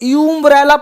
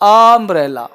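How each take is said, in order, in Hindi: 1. यह शब्द 'you' ध्वनि से शुरू होता है। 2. यह शब्द 'ah' ध्वनि से शुरू होता है।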